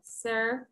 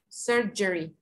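First: Surgery with a strong Y-like sound in the middle; model pronunciation. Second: Surgery with the strong Y-like sound; student repeat. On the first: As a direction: say surgery with a hard Y sound, like Spanish "y fuerte". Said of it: "this word is a little complicated". (surgery con una Y fuerte) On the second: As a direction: repeat surgery with a hard Y in the middle. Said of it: "Ese sonidito que yo les digo que es como una Y fuerte". (surgery con la Y fuerte) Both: Shown as a demonstration.

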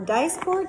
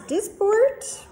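First: Dysport said DICE-port, long i; alternative pronunciation. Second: Dysport said DISS-port, short i; variant pronunciation. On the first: Doctor offering the other way to say the drug's name, Dysport as DICE-port. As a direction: say Dysport with a first syllable like "dice". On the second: Doctor giving the first way to say the drug's name, Dysport as DISS-port. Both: Shown as a demonstration. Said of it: "depending on how you wanna say it".

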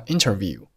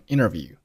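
First: Said in the usual way. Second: "interview" said as "innerview", no T after N; native-style "interview" with a silent T; dropped T. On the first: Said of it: "很多老外就会读成interview". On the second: Shown as a demonstration. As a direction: leave out the T in "interview". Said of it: "这个T可以不用报出来".

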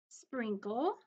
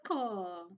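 First: Said in the usual way. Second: Gasp, then say Sprinkle in wonder; mock surprised gasp. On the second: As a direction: act amazed at Sprinkle for the kids. Gasp before the repeated word.

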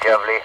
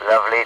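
No difference in how they are said.

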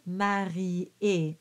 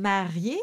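First: Slow "marié" split as ma-ri-é; marié in three syllables. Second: "marié" with ié run together; marié in two syllables. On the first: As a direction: separate the i and é in "marié". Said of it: "the way the notes are written". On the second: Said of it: "it becomes three syllables". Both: Shown as a demonstration.

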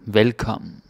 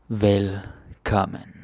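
First: Said in the usual way. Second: Velkommen said slowly, syllable by syllable; slow demo. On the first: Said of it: "normal pace repeat". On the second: Shown as a demonstration. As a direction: stretch out Velkommen slowly, each sound clear. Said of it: "slow repeat of demo".

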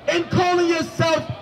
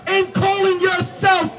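The two takes are said the same way.

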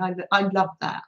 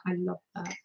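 First: Said in the usual way. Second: Repeated much softer, almost to herself; soft echo. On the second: Shown as a demonstration. Soft echo to the stitchers, savouring the crocheting. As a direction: let the repeat fall away quietly.

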